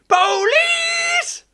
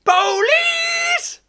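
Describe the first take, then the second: First: The voice is pitched fairly high. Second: The same.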